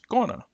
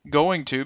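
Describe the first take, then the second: First: The words blend into one short reduced form. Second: Both words are said fully and separately. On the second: "the original forms"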